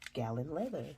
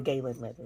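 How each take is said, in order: First: The first syllable sounds like 'gal'. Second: The first syllable sounds like 'gay'. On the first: The speaker calls it wrong. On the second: The speaker calls it right.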